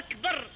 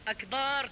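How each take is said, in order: First: The opening vowel is short. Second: The opening vowel is drawn out long. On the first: The speaker calls it right. "بالفتحة وليس بالألف" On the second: The speaker calls it wrong. "كما يقع البعض"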